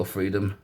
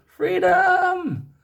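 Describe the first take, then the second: First: Said in the usual way. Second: Long, high, hammed-up shout; mock-heroic yell, far higher and louder; bad-accent battle cry. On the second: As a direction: bellow it like a movie war cry, stretched out. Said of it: "that was the worst accent ever".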